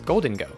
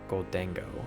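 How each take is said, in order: First: The middle syllable sounds like 'deng'. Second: The middle syllable sounds like 'dang'. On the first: The speaker calls it right. "It's Goldengo" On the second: The speaker calls it wrong. "I always have been saying Goldango"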